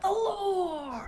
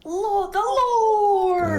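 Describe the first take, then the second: First: High laughing cry; Matt Pat impression. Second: High, slow, loud wail; dramatic cry. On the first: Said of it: "I have to say it like Matt Pat". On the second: Acted. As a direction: drag out the cry to the heavens. Dramatic cry about the Lord.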